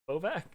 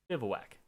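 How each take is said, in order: First: The word is said with two syllables. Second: The word is said with three syllables. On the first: The speaker calls it wrong. "No, it's not" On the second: The speaker calls it right. "I have looked up the pronunciation of this word probably a hundred times"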